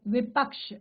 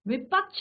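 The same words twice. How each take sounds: First: The word ends with a 'ksh' sound. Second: The word ends with a 'chh' sound. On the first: The speaker calls it right. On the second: The speaker calls it wrong.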